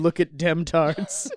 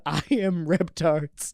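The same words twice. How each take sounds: First: Slow, louder country holler; mock farmer call-out. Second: Slow, lightly voiced monster; mock-grand creature announcement; dinosaur. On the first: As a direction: drawl it out like a farmer. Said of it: "just some farmer with a finger going". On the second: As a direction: proclaim it slowly like a dinosaur. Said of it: "a giant flame-breathing dinosaur that says".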